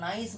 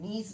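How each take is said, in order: First: The vowel sounds like 'eye'. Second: The vowel sounds like 'ee'. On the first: The speaker calls it wrong. "এটাকে নাইস বলে না কিন্তু" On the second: The speaker calls it right. "নিস বলে, উচ্চারণ হচ্ছে নিস"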